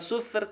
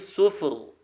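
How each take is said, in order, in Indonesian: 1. Huruf r dibaca tipis. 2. Huruf r dibaca tebal. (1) "bukan sufur" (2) "dibaca tebal"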